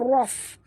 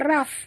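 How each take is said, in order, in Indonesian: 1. Bunyi r itu berat dan tebal. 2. Bunyi r itu ringan dan tipis. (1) "ini tebal" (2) "jangan baca raf"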